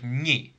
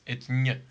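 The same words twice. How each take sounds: First: A vowel sound follows the consonant. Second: No vowel sound follows the consonant. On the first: The speaker calls it wrong. "you don't have to put the vowel after it. Nope. It's not like ñ" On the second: The speaker calls it right. "It's ñ"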